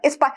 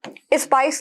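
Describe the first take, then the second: First: The word begins directly with the s sound. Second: An extra vowel comes before the s sound. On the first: The speaker calls it right. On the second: The speaker calls it wrong.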